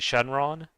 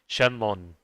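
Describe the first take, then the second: First: The second syllable starts with an R sound. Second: The second syllable starts with an L sound. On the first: "in Japanese, some people would say Shenron" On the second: "the R in Japanese is sometimes pronounced like an L, so it'd be like Shenlon"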